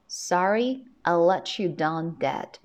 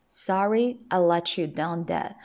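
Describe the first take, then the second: First: The words "let" and "you" are linked together. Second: The same.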